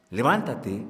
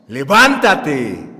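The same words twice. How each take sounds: First: Said in the usual way. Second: Loud, drawn-out order to rise; confident command. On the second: Retold or imitated. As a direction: call it out slowly with full authority. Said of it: "con voz segura le ordenó".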